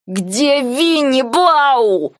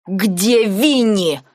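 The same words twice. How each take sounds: First: Slow, higher, rising anger, spitting out the words; hissed, spitting. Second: Said in the usual way. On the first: A narrator's reading. Nike face in the snow, demanding of Blau, hissed slowly. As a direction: hiss it slowly through spit and snow. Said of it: "прошипел он, отплёвываясь".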